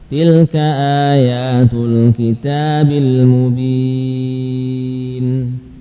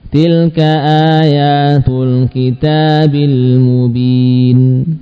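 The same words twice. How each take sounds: First: The vowel in 'mubin' is stretched out long. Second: The vowel in 'mubin' is held briefly. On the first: "Atau 4 harokat, bahkan boleh sampai 6 harokat" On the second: "Kita baca dengan 2 rakaat boleh"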